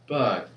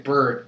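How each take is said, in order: First: It is said in a British accent. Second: It is said in the speaker's own accent. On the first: "but they say like bird" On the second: "We say bird"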